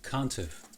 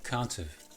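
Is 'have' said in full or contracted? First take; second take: contracted; contracted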